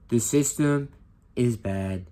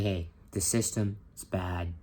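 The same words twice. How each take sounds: First: Punchy, loud Trump voice stressing "system"; Trump impression. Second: Said in the usual way. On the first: Teacher imitating Trump to the class, loud and emphatic. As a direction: hammer "The system" like a rally speech. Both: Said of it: "Now I'm gonna do a Trump impression".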